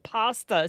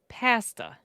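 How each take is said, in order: First: It is said with an American pronunciation. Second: It is said with a Canadian pronunciation. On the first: The speaker calls it right. "We're like pasta" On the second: The speaker calls it wrong. "Canadians say it a completely different way"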